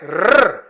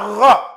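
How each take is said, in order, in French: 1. Le r se dit seul, sans voyelle. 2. Le r est suivi de la voyelle o. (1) "il y a une élidation et ça devient rrr" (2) "C'est pas ro"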